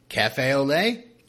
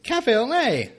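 First: Cafe au lait drawn out slowly, French vowels, questioning rise; slow mock French. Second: Cafe au lait much higher, stressed on Cafe, falling; high mock French. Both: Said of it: "me being angry with my notes".

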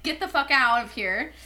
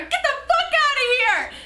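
First: Said in the usual way. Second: High-pitched retold shout; angry, strained holler; pissed-off yell. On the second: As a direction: yell it as if chasing someone off. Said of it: "I was, like, getting hella pissed".

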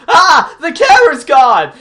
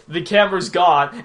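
First: High, loud cartoon-kid shriek of panic; mock panicked yell. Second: Said in the usual way. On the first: Mocking the cartoon kid's line in a loud panicked shriek. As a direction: yell it like a dumb kid losing it. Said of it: "Johnny goes". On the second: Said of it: "Get ready for this comedy".

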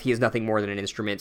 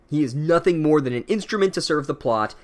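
First: "he is nothing more than an instrument" rattled off fast and low; quick flat repeat. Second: "instrument" stretched and dropped hard; dramatic stress on instrument. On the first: Narrator repeating the book's line, fast throwaway. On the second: Narrator mocking the book's prose, heavy stress on "instrument". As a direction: weigh down the word "instrument". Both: Shown as a demonstration. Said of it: "narration is mirroring".

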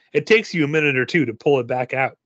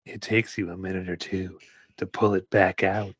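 First: Said in the usual way. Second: Low straining voice. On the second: Shown as a demonstration. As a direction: lower and softer, strained. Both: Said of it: "repeats line in other voice".

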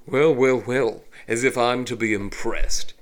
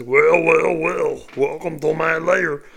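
First: Elegant, smug elf villain; cool, disdainful villain line; refined villain voice. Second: Loud, hammy cartoon villain; cheesy villain voice. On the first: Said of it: "The evil villain just says his line". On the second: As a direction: ham up a corny evil welcome. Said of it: "it doesn't fit. It's not smart". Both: Shown as a demonstration.

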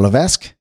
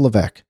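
First: Levesque said as "luh-VESK"; sounded-S pronunciation. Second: Levesque said as "luh-VECK"; silent-S pronunciation. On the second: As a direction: say Levesque with no S sound, ending in "veck". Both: Real, not acted. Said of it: "is that pronounced Levesque or Levesque".

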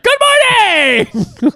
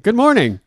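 First: Very high, drawn-out bubbly greeting; exclamation point voice. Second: Said in the usual way. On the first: Shown as a demonstration. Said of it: "But it's like, "Good morning!". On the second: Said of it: "But it's like".

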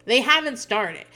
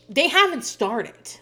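First: Slow, louder insistence again; retold scream, repeated. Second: Slow, louder insistent repeat; retold scream. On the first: Daughter repeating to her dad, slow and pressing. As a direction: hammer the point home. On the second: Daughter insisting to her dad the work hasn't started, slow and upset. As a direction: spell it out to him, upset. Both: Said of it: "she's starting to scream".

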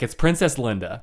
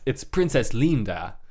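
First: Said in the usual way. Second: "Linda" said the Spanish way, LEEN-dah; Spanish "Linda", first vowel as in "lean"; Spanish pronunciation. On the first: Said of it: "but, like, it's Princess Linda". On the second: Shown as a demonstration. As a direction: say "Linda" with a long ee in the first syllable. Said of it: "with Spanish".

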